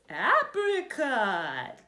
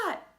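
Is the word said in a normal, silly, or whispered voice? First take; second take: silly; normal. First: It is said in a funny, silly voice. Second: It is said in an ordinary speaking voice. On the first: "say it in a silly voice" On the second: "I'm going to say it one way"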